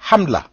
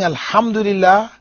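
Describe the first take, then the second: First: It is said fast with syllables dropped. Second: It is said slowly with every syllable.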